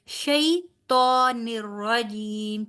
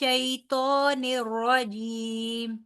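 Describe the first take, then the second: First: The vowel after 'sh' is drawn out long. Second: The vowel after 'sh' is said short and quick. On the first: The speaker calls it wrong. "शई तो निर्रजीम नहीं बोलना" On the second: The speaker calls it right. "शई को लंबा नहीं करना, ... बस इसको जल्दी से अदा करना है"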